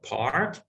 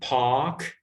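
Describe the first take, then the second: First: It is said in an American accent. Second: It is said in a British accent. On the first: "instead of park" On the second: "and park"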